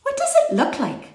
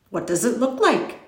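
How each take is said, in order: First: Put-on very high little-girl voice; high-pitched, inquisitive small child; Lindy. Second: Lightly voiced curious boy; mildly curious child's question; Tom. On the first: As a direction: pipe up with a child's curious question. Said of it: "asked Lindy". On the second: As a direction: ask it simply, with a small lift. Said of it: "Tom asked". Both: A narrator's reading.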